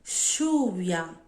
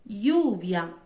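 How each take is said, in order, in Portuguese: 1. O ll soa como um som sh. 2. O ll soa como um som y. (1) "Som de X" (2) "Som de I"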